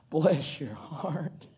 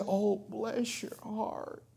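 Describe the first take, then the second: First: Sarcastic bless your heart. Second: Sympathetic bless your heart. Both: Shown as a demonstration. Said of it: "It's all in the voice inflection".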